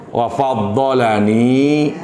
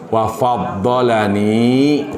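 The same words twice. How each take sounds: No difference in how they are said.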